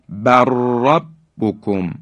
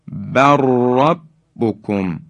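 Both takes have the same delivery.

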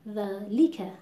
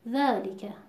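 First: The l syllable is pushed with heavy stress. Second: The vowel after the l is cut short. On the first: "فشار زیادی و نبر زیاد میاریم رو حرف لام" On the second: "این اختلاس در لام دیده میشه"

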